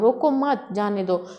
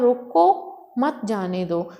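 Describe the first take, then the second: First: There is a pause right after mat. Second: There is a pause right after roko.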